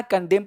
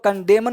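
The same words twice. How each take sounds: First: कंडेम ending on m, silent n; correct pronunciation. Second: कंडेमन with the final n wrongly sounded; wrong pronunciation. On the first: Teacher showing students how to read it, कंडेम with silent n. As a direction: say कंडेम with no n sound after the m. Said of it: "एन चुप रहता है". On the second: Teacher showing students the misreading to avoid, कंडेमन with n sounded. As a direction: say कंडेमन, adding an audible "-an" after the m. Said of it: "कंडेमन नहीं पढ़ना है". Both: Shown as a demonstration.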